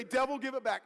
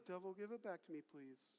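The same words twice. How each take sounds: First: Forceful, raised-pitch command; like you mean it. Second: Very soft, timid little request; meek pleading. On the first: Preacher modelling the line for congregation, like you mean it. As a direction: demand it back with full conviction. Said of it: "say it like you mean it". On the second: Preacher showing congregation how not to say it, meek pleading. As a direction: ask feebly, as if not meaning it. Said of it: "None of this". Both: Shown as a demonstration.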